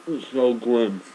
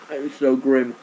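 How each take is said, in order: First: Disgusted. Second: Loud, high, disgusted wail; disgusted cry. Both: Real, not acted. Reacting to eating raw leek.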